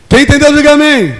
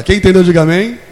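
First: "Quem entendeu, diga amém" shouted high and loud; preaching shout. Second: Said in the usual way. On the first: Shown as a demonstration. Preacher demands an answer from the congregation, shouting. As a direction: hammer "diga amém" home like a call to the crowd.

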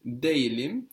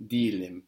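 First: "Delim" said fully as it is written; spelled-out pronunciation. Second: "delim" contracted as in everyday speech; spoken pronunciation. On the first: Teacher shows student the written form, "Delim" pronounced as spelled. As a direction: sound out every written syllable of "Delim". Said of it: "saying it how it's written". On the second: Teacher shows student the spoken form, "delim" said contracted. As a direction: run "delim" together into "deelim". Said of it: "or in spoken". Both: Shown as a demonstration.

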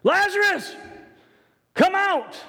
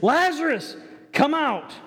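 First: High, loud call to the tomb; loud cry. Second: Higher, raised call to the tomb. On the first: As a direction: cry out Lazarus with full force. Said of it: "he cried out with a loud voice". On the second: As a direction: call out to Lazarus. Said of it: "And here it says". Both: Acted.

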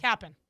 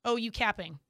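First: "Capping" as cappin', g dropped; casual slang "Capping" ending in -in'; slang pronunciation. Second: "capping" with a full -ing ending; wrong slang pronunciation. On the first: Shown as a demonstration. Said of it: "You gotta say it like that". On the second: Retold or imitated. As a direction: sound out the -ing in "capping", a bit square. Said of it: "say it like that".

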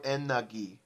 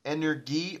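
First: "energy" slowly as EN-nah-GHEE, no R; R-less hard-G pronunciation. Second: "energy" slowly as EN-er-GHEE, R sounded; hard-G pronunciation. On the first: Offering the other version to friends, slow EN-nah-GHEE for "energy". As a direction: drop the R in "energy", end on GHEE. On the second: Asking friends how they pronounced it, slow EN-er-GHEE for "energy". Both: Shown as a demonstration. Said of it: "did they actually pronounce it".

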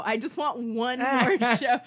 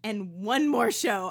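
First: Louder, laughing desperate whine; desperate plea. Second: Said in the usual way. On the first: Shown as a demonstration. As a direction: beg for it like an addict. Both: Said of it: "another way I would punch this up".

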